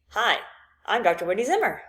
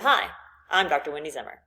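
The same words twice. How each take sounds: First: The pitch rises at the end. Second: The pitch falls at the end. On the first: It sounds like a question. The speaker calls it wrong. "if you go up, then it makes you sound like you're asking a question" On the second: It sounds like a confident statement. The speaker calls it right. "instead of"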